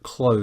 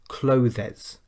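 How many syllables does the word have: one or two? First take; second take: one; two. First: The word is said as one syllable. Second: The word is said with two syllables. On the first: The speaker calls it right. "the most important sound in this word is the z at the end" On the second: The speaker calls it wrong. "pronounce it with two syllables"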